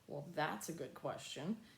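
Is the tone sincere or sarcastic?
sarcastic. It sounds sarcastic and annoyed. The question shows the child ignored an instruction. "Clearly you didn't hear, you know, your dad ask you to clean up your room earlier"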